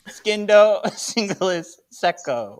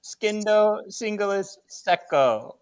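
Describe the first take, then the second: First: Skindo breaking into a laugh, singulis secco louder; laughing through it. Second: Said in the usual way. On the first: Shown as a demonstration. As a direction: giggle mid-spell. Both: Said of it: "Yay, I get this one".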